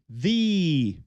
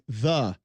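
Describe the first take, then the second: First: The word is said in an old-fashioned theatrical way. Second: The word is said in an ordinary everyday way. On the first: "he sounded like he was reading Shakespeare" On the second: "The girl that I say the incorrectly"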